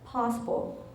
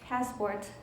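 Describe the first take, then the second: First: It is said in a British accent. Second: It is said in an American accent. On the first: "영국에서 딱 갔는데 공항에서 이러는 거예요" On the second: "미국 사람들이 할 때는 되게 굴리고"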